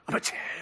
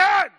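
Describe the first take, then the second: First: The phrase is said firmly at normal volume. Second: The phrase is said very loudly, almost shouted. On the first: "So you don't have to scream it. You just have to mean it" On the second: "Did you hear me?"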